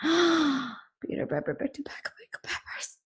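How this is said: It sounds scared, like after seeing a ghost.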